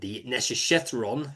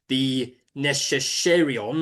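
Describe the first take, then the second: First: The name is said with a 'th' sound. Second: The name is said without a 'th' sound. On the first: The speaker calls it right. "that's how to say it" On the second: The speaker calls it wrong. "let me say that again"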